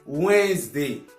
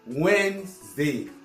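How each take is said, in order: No difference in how they are said.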